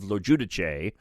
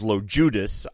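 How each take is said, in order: First: The surname is said with an Italian pronunciation. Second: The surname is said with an American pronunciation. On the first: "I pronounce it the more Italian way of" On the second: "the American version of that is"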